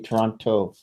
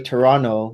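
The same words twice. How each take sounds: First: The final t is clearly pronounced as t. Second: The final t is replaced by an n sound. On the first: The speaker is not from the city. "if you're from Vancouver, you probably say Toronto" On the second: The speaker is from the city. "you say Toronto with an N"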